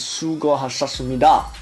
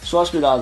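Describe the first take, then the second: First: The phrase is said fully and carefully. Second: The phrase is said in a loose, slurred way. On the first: The speaker calls it right. "the real way of saying it is 수고하셨습니다" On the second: The speaker calls it wrong. "But I really just say 수고하셨습니다"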